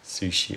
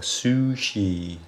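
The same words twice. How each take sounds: First: It is said with a Japanese pronunciation. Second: It is said with a Western pronunciation.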